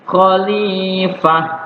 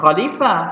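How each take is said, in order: First: The long vowel is held for two counts. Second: The long vowel is not held two counts. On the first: The speaker calls it right. "tapi khalifah ya dua harokat" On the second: The speaker calls it wrong. "Jangan khalifah"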